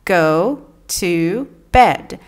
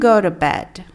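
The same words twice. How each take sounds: First: Each word is said separately and carefully. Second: The words run together in a relaxed way.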